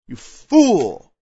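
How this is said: It is said in a loving, gentle way.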